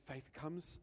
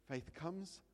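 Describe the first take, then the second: No difference in how they are said.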